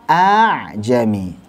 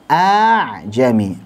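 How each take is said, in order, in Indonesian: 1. Hamzah kedua menjadi vokal panjang. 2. Hamzah kedua menjadi vokal panjang.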